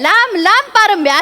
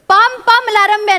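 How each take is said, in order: First: The sounds are in order, starting with 'lamb'. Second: The first sounds are swapped, starting with 'pam'. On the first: The speaker calls it right. "असं आहे" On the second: The speaker calls it wrong. "नाही रे"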